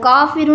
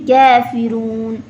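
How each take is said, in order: First: The first vowel is an open 'aa'. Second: The first vowel leans toward 'e'. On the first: The speaker calls it wrong. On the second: The speaker calls it right.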